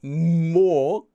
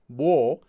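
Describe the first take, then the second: First: The first consonant is a full, strong M. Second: The first consonant is a soft, B-like M. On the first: The speaker calls it wrong. "It's not mo" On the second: The speaker calls it right. "that letter, is soft"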